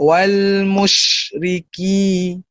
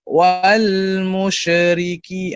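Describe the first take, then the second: First: The consonants are released with much breath. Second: The consonants are released with little breath. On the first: The speaker calls it right. "kita nak wal musyriki" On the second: The speaker calls it wrong. "ada orang dia baca wal musyriki"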